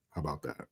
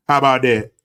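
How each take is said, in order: First: Muttered low "How about that?"; soft lowered taunt; quiet muttered. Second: Loud, punched "How about that?"; louder taunting challenge. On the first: Quiet first take. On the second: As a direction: throw "How about that?" out like a dare. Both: Real, not acted.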